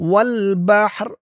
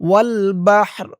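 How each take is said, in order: No difference in how they are said.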